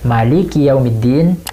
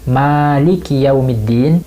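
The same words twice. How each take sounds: First: The vowel after the m is short. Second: The vowel after the m is long. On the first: It means the king of the day of judgment. "dibaca pendek" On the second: It means the owner of the day of judgment. "dibaca panjang"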